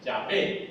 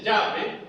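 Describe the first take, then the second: First: Yahvé with the accent landing on VÉ; stress on final syllable. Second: Yahvé stressed on YAH instead of the ending; Yahvé mis-stressed as YAH-ve; wrong stress, first syllable. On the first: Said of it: "y ahí los acentos finales". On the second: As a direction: hit the first syllable of Yahvé, leave vé weak. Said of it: "no se dice". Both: Shown as a demonstration.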